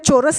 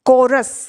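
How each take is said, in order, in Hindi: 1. इस शब्द की शुरुआत "ch" की आवाज़ से होती है। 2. इस शब्द की शुरुआत "k" की आवाज़ से होती है।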